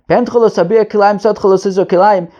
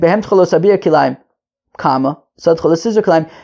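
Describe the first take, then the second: First: It is said in one breath. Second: There is a break in the middle.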